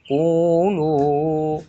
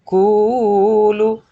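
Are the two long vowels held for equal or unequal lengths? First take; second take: equal; unequal. First: The two long vowels are held equal lengths. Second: The two long vowels are held unequal lengths. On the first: The speaker calls it right. "Harus sama" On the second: The speaker calls it wrong. "nah itu tidak boleh"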